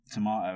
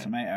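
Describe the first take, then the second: First: Tomato said "tuh-MAH-toh"; tomato with a long British "ah" in the middle; British pronunciation. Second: Tomato said "tuh-MAY-toh"; Tomato with an American "may" in the middle; American pronunciation. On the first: Shown as a demonstration. Briton asking Americans for one, British pronunciation. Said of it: "have the old banter back and forth". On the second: Retold or imitated. Imitating Americans correcting a Briton, American pronunciation. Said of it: "and they're like".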